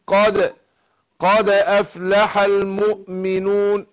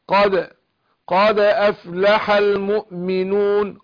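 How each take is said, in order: The two takes are said the same way.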